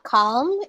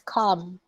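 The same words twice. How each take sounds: First: The L sound is pronounced in the word. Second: The L sound is silent in the word. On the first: The speaker calls it wrong. "It's not calm" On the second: The speaker calls it right. "You don't say the letter L"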